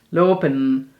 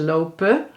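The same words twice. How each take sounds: First: It ends in a strong n, without a schwa. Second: It ends in a schwa with no n. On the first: This is how people in the brown region say it. "ze juist de e in slikken en de n heel erg uitspreken. Soms als een m bijna" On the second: This is how most Dutch speakers say it. "die zeggen dan de schwa en slikken de n in"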